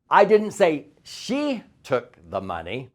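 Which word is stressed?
say. The word say is stressed.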